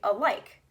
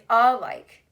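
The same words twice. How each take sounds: First: The stress is on the second syllable. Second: The stress is on the first syllable. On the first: The speaker calls it right. "you say alike" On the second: The speaker calls it wrong. "You don't say alike"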